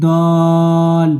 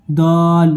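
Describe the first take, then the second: First: "দল" stretched on a level note; long madd. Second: "দল" held briefly on a level note; shorter hold. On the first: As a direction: hold the vowel of "দল" long before closing on the l. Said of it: "বড় মাদ". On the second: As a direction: chant "দল" with a moderately long vowel. First take before madd is pointed out. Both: Shown as a demonstration.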